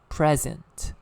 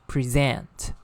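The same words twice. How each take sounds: First: The stress is on the first syllable. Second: The stress is on the second syllable. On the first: It is used as an adjective or noun. "when it is used as an adjective or a noun, it is stress on the first syllable" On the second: It is used as a verb. "when it is used as a verb, is present. Present. The stress falls on the second syllable"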